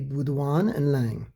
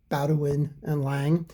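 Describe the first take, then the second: First: The name is pronounced the French way. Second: The name is pronounced the English way. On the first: "if I'm pronouncing it correctly in French" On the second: "in English"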